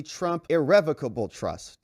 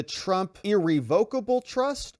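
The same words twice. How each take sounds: First: Irrevocable said as ir-REV-ocable; contrasted pronunciation. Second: Irrevocable said as ir-re-VOKE-able; contrasted pronunciation. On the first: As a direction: put the stress on REV in irrevocable, short e. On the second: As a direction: put the stress on VOKE in irrevocable, long o. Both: Retold or imitated. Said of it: "I think it's pronounced irrevocable".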